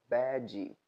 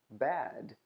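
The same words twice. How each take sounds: First: An extra vowel sound is added after the consonant. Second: The word ends cleanly on the final consonant. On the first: The speaker calls it wrong. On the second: The speaker calls it right.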